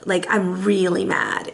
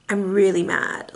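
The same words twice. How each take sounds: First: Low and slow, "really" drawn out; calm, emphatic anger. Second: Low, understated, diplomatic anger; calm anger. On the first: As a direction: calmly stretch the word "really" for emphasis. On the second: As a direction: state displeasure calmly, in a lowered voice. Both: Shown as a demonstration. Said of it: "I'm very calm when I say things".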